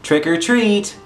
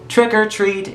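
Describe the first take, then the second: First: It rises like a question, offering a choice. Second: It is said flat, like a statement.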